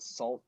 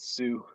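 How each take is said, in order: First: The word is said like 'salt' with an L. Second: The word is said like 'soo' without an L. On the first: The speaker calls it wrong. "People that don't know always say it wrong" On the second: The speaker calls it right. "but it's Sioux"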